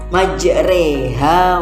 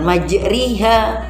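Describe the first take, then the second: First: The vowel after r is a middle e. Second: The vowel after r is a clear i. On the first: The speaker calls it right. "antara tengah-tengah antara keduanya" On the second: The speaker calls it wrong. "bukan majriha"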